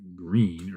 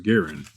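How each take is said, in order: First: The surname is said as one syllable, Green. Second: The surname is said as two syllables, Guerin. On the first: The speaker calls it wrong. "not Green" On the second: The speaker calls it right. "or Guerin"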